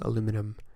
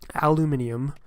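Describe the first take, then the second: First: The word is said with four syllables. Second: The word is said with five syllables. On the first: The speaker calls it wrong. "We say aluminum" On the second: The speaker calls it right. "not saying aluminium"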